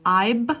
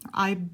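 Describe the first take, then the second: First: The final sound is made with both lips together. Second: The final sound is made with teeth on lip. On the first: The speaker calls it wrong. "If your two lips are coming to together" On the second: The speaker calls it right. "it should be the V sound"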